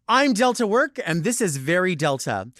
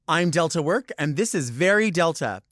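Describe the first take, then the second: First: It sounds strong, with real excitement. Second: It sounds weak, with fake excitement.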